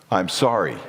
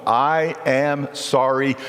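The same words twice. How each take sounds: First: Lower, falling "I'm sorry." ending flat and final; closed apology. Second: Slow, deliberate I am sorry with a full stop; firm full-stop apology. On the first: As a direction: drop the voice on "sorry" and stop. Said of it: "not a but there". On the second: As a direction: say "I am sorry." slowly, no but after it. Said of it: "Put a period there". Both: Shown as a demonstration.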